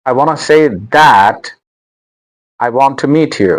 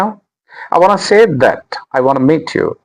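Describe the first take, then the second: First: The word 'that' is full and stressed. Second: The word 'that' is weak and quick. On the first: The speaker calls it wrong. "Don't say दैट" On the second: The speaker calls it right. "दट बोलना है और उसको जल्दी से बोलना है"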